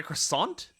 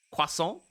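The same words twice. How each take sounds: First: Said in the usual way. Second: Croissant as "kwasson", final T dropped; French-style pronunciation. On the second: Real, not acted. Reader retries the shop word, croissant French-style as "kwasson". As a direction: say croissant the French way, nasal ending with no T.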